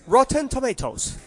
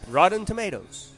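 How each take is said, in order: First: It is said in a British accent. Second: It is said in an American accent.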